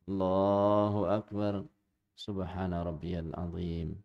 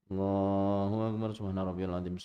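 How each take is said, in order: First: The phrases are separated by calm pauses. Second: The phrases run together with no pauses. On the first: The bowing is done calmly and completely. The speaker calls it right. "Harusnya bagaimana?" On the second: The bowing is rushed and never settles. The speaker calls it wrong. "Ini sambil jalan, ... Jadi kayak enggak ada jedanya"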